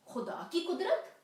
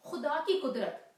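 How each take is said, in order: First: "खुदा की कुदरत" louder, climbing high into a question. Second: "खुदा की कुदरत" loud and high, falling to a firm close; emphatic statement. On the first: Questions the recalled verse phrase. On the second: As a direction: declare "खुदा की कुदरत" forcefully, tune coming down. Answers own question with phrase. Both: Acted.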